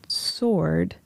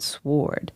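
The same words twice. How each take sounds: First: The W sound is silent after the S. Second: The W sound is pronounced after the S. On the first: This is the modern English pronunciation. "the W became silent ... sword is what we now have in modern English" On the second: This is the older Middle English pronunciation. "So people would have said sword"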